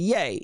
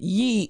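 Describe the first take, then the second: First: The name is said with an 'ay' vowel. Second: The name is said with an 'ee' vowel. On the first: It is how most people say the name. "instead of yay" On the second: It relates the name to the Bible's word for you. "he's calling it ye"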